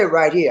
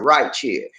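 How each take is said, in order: First: Here starts with a plain h sound. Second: Here starts with a ch sound. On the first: "I don't say right here" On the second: "I said right chair"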